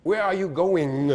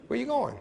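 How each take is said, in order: First: Said in the usual way. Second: "going" said goin', where you goin'; no ng sound. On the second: Shown as a demonstration. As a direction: drop the g at the end of "going". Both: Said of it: "No N G sound".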